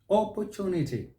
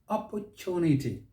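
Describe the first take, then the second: First: It is said with a British accent. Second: The same.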